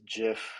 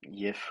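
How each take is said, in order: First: The word begins with a J sound. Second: The word begins with a Y sound. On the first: "I call it Jif" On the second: "or I don't know how you say it"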